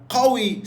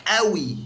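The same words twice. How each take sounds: First: Slow, high "qawi" for قوي; standard Arabic qaf. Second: قوي said "awi", q dropped to a glottal stop; Egyptian glottal stop. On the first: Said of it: "ستاندرد". (قوي بالفصحى، بنطق القاف) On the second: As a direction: open قوي on a hamza, no q. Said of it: "في اللهجة المصرية". (قوي بالمصري، همزة بدل القاف) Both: Shown as a demonstration.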